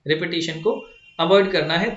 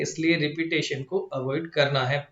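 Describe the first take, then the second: First: Teacher hammering home avoid; emphatic repeat. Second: Said in the usual way. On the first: Shown as a demonstration. Teacher repeating the rule to students, stressing avoid. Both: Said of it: "एक ही चीज का ध्यान रखना है".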